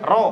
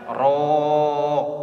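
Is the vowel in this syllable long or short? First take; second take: short; long. First: The vowel is held short. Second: The vowel is drawn out long. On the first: The prayer is not invalidated. "kalau dibaca pendek" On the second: The prayer is invalidated. "Kalau dipanjang"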